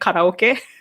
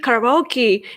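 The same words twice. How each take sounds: First: The word is said with a Japanese pronunciation. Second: The word is said with an English pronunciation. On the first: "It's both are sake and karaoke" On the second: "you guys call ... karaoke karaoke"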